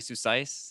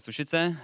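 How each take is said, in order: First: The name is said the way the team says it. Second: The name is said with Czech pronunciation. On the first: This is what teammates call him. "my team's been calling me" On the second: This is the original name of the town. "in Czech it's a town. It's called"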